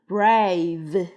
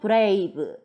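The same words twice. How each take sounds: First: The word ends with a buzzing v sound. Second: The word ends with a plain b sound. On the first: The speaker calls it right. "V로 끝이 나야 됩니다" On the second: The speaker calls it wrong. "이렇게 읽으면 안 되고"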